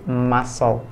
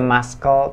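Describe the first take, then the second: First: The c is not pronounced at all. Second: The c is pronounced as a k sound. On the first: The speaker calls it right. "C-nya disilentkan jadi muscle" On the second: The speaker calls it wrong. "nggak dibaca muscle"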